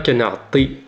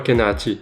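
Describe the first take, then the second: First: The T is made deep in the throat. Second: The T is a plain, light sound. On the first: The speaker calls it right. "C'est le T qui prend toute la gorge" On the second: The speaker calls it wrong. "et non pas"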